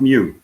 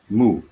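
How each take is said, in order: First: The vowel has a glide, like 'mew'. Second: The vowel is a plain 'oo', like 'moo'. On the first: The speaker calls it wrong. "not Mew" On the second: The speaker calls it right.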